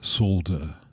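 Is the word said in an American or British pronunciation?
British. It is said in a British pronunciation. This is the form the critics insist on. The speaker calls it right. "it's solder"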